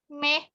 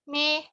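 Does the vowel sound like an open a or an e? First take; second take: e; e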